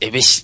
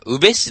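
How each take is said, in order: First: The word begins with an 'e' vowel. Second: The word begins with a 'u' vowel. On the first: The speaker calls it wrong. "エベシって言ってたんです" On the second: The speaker calls it right. "あれどうやら読み方、うべしだった"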